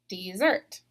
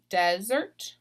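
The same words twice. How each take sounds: First: "dessert" stressed at the end, dee-ZERT; careful "dessert", weight on -ZERT; last-syllable stress. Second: "desert" stressed up front, DEZ-ert; slow, careful "desert" as a noun, DEZ-ert; first-syllable stress. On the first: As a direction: lean on the second syllable of "dessert". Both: Shown as a demonstration. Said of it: "underline the accented syllable".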